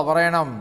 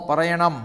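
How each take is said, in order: No difference in how they are said.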